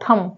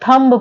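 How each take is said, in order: First: The final b sound is silent. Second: The final b sound is pronounced. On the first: The speaker calls it right. "केवल यहीं पर रुक जाओ" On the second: The speaker calls it wrong. "बहुत सारे students हैं वो क्या पढ़ते हैं? थंब पढ़ते हैं"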